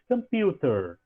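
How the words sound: It has a British accent with a clear t. "se você ouvir o britânico, você vai perceber que ele vai dizer mais computer"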